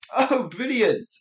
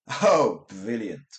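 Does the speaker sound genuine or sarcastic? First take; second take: genuine; sarcastic. First: It sounds genuinely pleased and enthusiastic. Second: It sounds dry and sarcastic. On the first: The thing is actually great. "that's great for the first one" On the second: The thing is actually terrible. "terrible for the second one"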